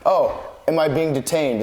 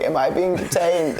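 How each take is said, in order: First: Said in the usual way. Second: Put-on lightly higher old lady voice; a hint of a frail old lady. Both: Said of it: "in an old lady voice".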